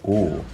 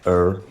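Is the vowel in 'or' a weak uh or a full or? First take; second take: full or; weak uh. First: The vowel is a full or sound. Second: The vowel is reduced to a weak uh. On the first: This is the speaker's own accent. "where I would normally say or" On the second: This is another speaker's accent. "He says er"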